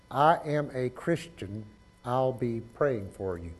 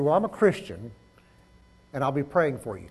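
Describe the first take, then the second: First: Slow word-by-word count. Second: Said in the usual way. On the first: Shown as a demonstration. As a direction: say "I'll be praying for you" slowly, word by word. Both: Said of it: "How many is that?".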